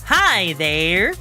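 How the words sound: It is said in a stepped, put-on character voice. "you're going"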